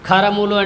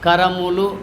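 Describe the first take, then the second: First: The first consonant is hard with a breath. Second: The first consonant is soft and unaspirated. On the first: The word means donkeys. "గట్టిగా అంటే" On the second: The word means hands. "కరములు అంటే చేతులు అవుతాయి"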